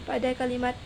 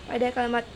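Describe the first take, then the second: The two takes are said the same way.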